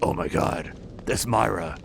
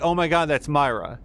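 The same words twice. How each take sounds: First: It is said in a put-on Sebastian voice. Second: It is said in the speaker's natural voice.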